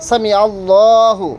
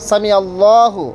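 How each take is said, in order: The two takes are said the same way.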